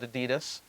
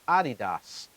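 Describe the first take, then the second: First: It is said the usual American way. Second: It is said the German way, as Adi-Das. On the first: The speaker calls it wrong. "In America, we call it Adidas" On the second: The speaker calls it right. "but in Germany, it's Adidas for Adi, Adolf, Dassler"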